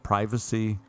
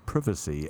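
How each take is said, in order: First: It is said in a non-British way. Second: It is said in a British way.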